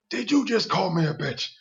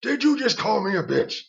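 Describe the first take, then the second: First: Higher, offended challenge; Robert jumping up, offended; indignant, rising. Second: Higher and louder, outraged; Robert repeating it, angrier; more indignant. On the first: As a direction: bristle at the insult, pitch up. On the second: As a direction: push the outrage further the second time. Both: Retold or imitated. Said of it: "He jumped up".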